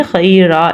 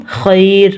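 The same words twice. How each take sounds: First: "خیرہ" ending in an a vowel, khaira; single final zabar. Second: "خیر" ending on a bare r; stop on bare consonant. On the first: Teacher showing the other ending, "خیرہ" with final a. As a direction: add one short a after the r in "خیرہ". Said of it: "ایک زبر پڑھنی تھی". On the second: Teacher showing a pause, "خیر" without final vowel. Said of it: "اس را کی صرف آواز نکالیں گے". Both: Shown as a demonstration.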